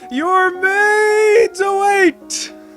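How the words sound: It is said imitating the Futurama guy.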